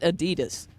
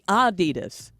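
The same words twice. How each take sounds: First: The stress is on the second syllable. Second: The stress is on the first syllable. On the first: The speaker calls it wrong. "stressing the 2nd" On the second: The speaker calls it right. "with a slight emphasis on the first syllable"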